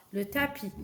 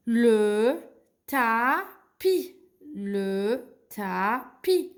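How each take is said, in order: First: Said in the usual way. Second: "tapis" stretched as taa... pi; very slow "Le tapis" with gaps, silent S; syllable-by-syllable reading. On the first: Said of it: "je la prononce pas". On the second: Shown as a demonstration. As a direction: sound out each syllable for beginners. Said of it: "Le S, c'est une lettre muette".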